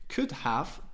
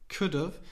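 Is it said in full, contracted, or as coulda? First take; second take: full; contracted. First: Both words are fully pronounced, with the h. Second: The second word is reduced to a short 'of'.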